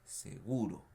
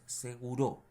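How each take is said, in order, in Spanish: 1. El acento está en la sílaba del medio. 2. El acento cae fuera de la sílaba del medio. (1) "sino que seguro. Palabra grave" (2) "No es seguro ni es seguro"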